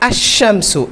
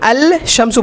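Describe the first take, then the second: First: The 'l' merges into a doubled 'sh' sound. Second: The 'l' sound is clearly pronounced before 'shamsu'. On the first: The speaker calls it right. "এখানে বলতে হবে আশ-শামসু" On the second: The speaker calls it wrong. "আল শামসু বলা যাবে না"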